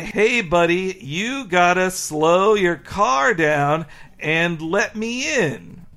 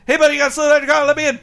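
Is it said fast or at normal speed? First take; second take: normal speed; fast. First: It is said at a normal speed. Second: It is said very fast, like Homer.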